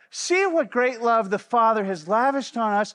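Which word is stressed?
none. The word lavished gets no special emphasis.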